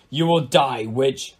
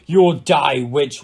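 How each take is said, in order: First: Said in the usual way. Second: Loud, raised-pitch battle cry; roared threat. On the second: A narrator's reading. King charging at the mean-looking woman, roaring. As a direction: roar it out at the enemy. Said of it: "roared King Henry".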